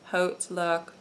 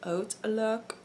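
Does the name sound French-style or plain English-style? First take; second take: English-style; French-style. First: The name is said with a plain English-style pronunciation. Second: The name is said with a French-style pronunciation. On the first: The way other people say it. "some people pronounce it" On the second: The speaker's own habitual way of saying it. "I always say Outlook because I try to sound French"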